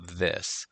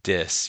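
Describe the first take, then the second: First: The word begins with a soft th sound. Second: The word begins with a hard d sound. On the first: "your tongue goes under under your teeth when you go" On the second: "when you say dis, your tongue goes under your um, the roof of your mouth"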